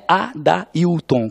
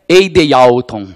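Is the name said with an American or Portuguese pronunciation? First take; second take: Portuguese; American. First: The name is said with a Brazilian Portuguese pronunciation. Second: The name is said with an American English pronunciation. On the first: The speaker calls it right. "com esta pronúncia, com essa sonoridade" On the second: The speaker calls it wrong. "como o americano consegue ler meu nome"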